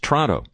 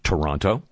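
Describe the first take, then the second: First: The name is said the local way. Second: The name is said the outsider way. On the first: The speaker calls it right. "it's Toronto" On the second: The speaker calls it wrong. "It's not Toronto"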